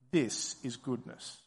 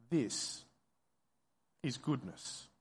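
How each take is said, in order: First: Low, soft, reflective statement; said to oneself. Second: Softer, low, with a long pause after THIS; said to oneself, broken up. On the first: Preacher voicing what listeners should tell themselves, hushed. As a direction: say it quietly, as if to yourself. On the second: Preacher repeating the listeners' inner words, hushed and halting. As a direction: let THIS hang, then quietly finish "is goodness". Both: Acted. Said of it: "And then say to yourself".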